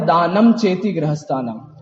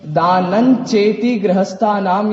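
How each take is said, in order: First: The nasal before cheti sounds like m. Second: The nasal before cheti sounds like n. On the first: The speaker calls it wrong. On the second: The speaker calls it right.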